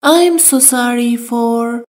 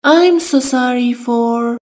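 No difference in how they are said.

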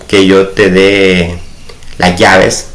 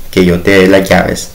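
First: Slow, carefully spaced "que yo te dé las llaves"; slow teaching demo. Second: "dé" leaned on, the other words lighter; stress on dé. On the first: Teacher reading an example sentence to students, slowly. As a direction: lay out each word of "que yo te dé" for the class. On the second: Teacher showing students which word carries the accent, stressing "dé". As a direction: give "dé" in "que yo te dé las llaves" the weight. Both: Shown as a demonstration. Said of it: "ahí el de va a llevar acento".

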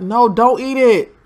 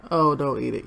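First: Louder, slower shout of no, don't eat it; urgent warning. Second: Said in the usual way. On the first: Real, not acted. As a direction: call out to stop him eating. Warning a Sim about spoiled food.

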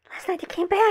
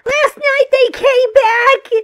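First: Frightened hushed. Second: Slow, loud, desperate cry; panicked shout. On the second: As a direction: yell it out in terror. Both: Acted. Terrified caller on phone.

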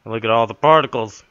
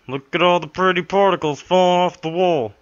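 First: Said in the usual way. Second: High, sing-song mock wonder; mock delight. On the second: Player mocking the game's particles, high and sing-song. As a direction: gush over the pretty particles.

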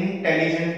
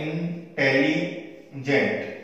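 First: Said in the usual way. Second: इंटेलिजेंट drawn out slowly, each of the three syllables apart; slow syllable demo. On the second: Shown as a demonstration. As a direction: spell out इंटेलिजेंट by its syllables for the class. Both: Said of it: "इंटेलिजेंट तीन syllable है".

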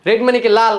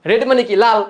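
The two takes are said the same way.

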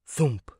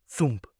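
The two takes are said the same way.

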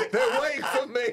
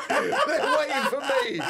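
First: Louder, called-out mock reminder; mock shout. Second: Slow, laughing mock of the reminder; laughing mock quote. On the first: Comic repeating the host's hint as a mock shout. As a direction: shout it as a joke. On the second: Comic mocking the host's hint, slow and laughing. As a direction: tease him, laughing through it.

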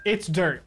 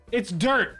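First: Said in the usual way. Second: Rising, mocking echo of chat; mocking quote. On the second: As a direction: repeat it back with a mocking lilt. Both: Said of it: "You said".

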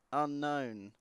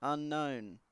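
Both takes have the same delivery.

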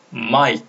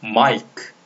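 First: 마이크 as one syllable, k barely released; quick reading. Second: 마이크 with the final 크 as its own syllable; full reading. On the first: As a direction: cut 마이크 short on an unreleased k. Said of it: "빨리 읽는다면". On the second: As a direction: release a separate k at the end of 마이크. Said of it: "이렇게 하시면 되고요". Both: Shown as a demonstration.

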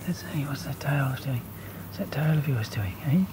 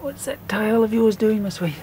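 First: Soft whisper to the cat. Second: Said in the usual way. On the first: Real, not acted. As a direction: hush it as if not to startle her.

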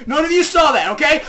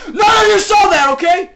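First: Raised, higher voice, insistent; pressing, louder cover-up; mock insistence. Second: Very loud, high-pitched yelling; escalated panicky cover-up yell; mock frantic shout. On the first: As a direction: warn the viewers firmly. Insisting viewers forget, first take. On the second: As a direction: shout the warning at the top of your voice.

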